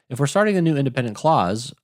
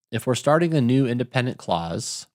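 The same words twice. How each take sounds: First: "If we're starting a new independent clause" said faster and a bit higher; quicker restart. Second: Said in the usual way. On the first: Shown as a demonstration.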